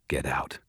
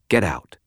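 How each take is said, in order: First: Low, soft dismissal; quiet. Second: Said in the usual way. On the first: A narrator's reading. Detective releasing the prisoner, quiet and low. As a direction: drop the voice and say it quietly. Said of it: "she said quietly".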